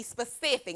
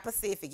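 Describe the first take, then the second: First: "specific" with a clear s at the start; correct "specific". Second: "Pacific" with the opening s dropped; mistaken "Pacific". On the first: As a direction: sound the s-p opening of "specific". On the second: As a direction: start "Pacific" on p, no s before it. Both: Shown as a demonstration. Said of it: "not Pacific, y'all".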